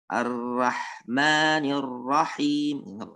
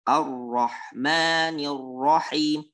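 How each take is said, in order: First: The r sounds are light and thin. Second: The r sounds are heavy and thick. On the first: The speaker calls it wrong. "nggak boleh kita baca dengan" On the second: The speaker calls it right. "Tapi harus tebal"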